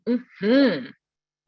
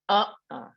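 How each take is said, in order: First: The stress is on the last syllable. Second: The stress is on the first syllable. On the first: It is a yes. "if the emphasis is on the last syllable" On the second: It is a no. "It's an emphasis on the first syllable"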